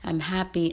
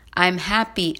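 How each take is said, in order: First: It is said softly at a lower pitch. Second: It is said loudly at a high pitch. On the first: "gradually lower it till it becomes a whisper" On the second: "we'll start with a high tone"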